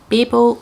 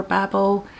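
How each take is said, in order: First: "Babel" opening like the word "bay"; BAY-bel pronunciation. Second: "Babel" rhyming with "babble"; BAB-el pronunciation. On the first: Book reviewer offering one way to say the title, "Babel" as BAY-bel. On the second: Book reviewer offering the other way to say the title, "Babel" as BAB-el. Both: Shown as a demonstration. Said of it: "People pronounce it different ways".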